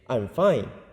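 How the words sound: It is said in a bright, cheerful voice. The person really is fine. "with a cheerful voice"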